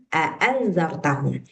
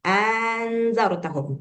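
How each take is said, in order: First: It begins with two separate short A sounds. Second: It begins with one long drawn-out A sound. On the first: This is the reading of the speaker's own recitation tradition. "di qiraat kita bacanya a'anzartahum" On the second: This is the reading of some other recitation traditions. "A-nya dipanjangkan"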